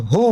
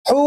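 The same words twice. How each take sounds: First: "হু" with a light, open h; the other h. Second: "হু" with a tight h from the throat; one of two h's. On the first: Teacher contrasts two h letters, light h. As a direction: let the "হ" of "হু" out loosely. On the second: Teacher contrasts two h letters, tight h. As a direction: constrict the throat on "হু". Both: Shown as a demonstration. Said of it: "দুটার মাঝে পার্থক্য আছে".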